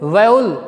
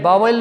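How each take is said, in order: First: The first syllable sounds like 'vow'. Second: The first syllable sounds like 'vaa'. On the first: The speaker calls it right. "क्या बोलते हैं इसको?" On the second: The speaker calls it wrong. "वावल नहीं बोलते इसको"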